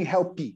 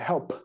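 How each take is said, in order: First: An extra vowel sound follows the final p. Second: The word ends cleanly on the p sound. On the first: The speaker calls it wrong. "não tem" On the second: The speaker calls it right. "É help"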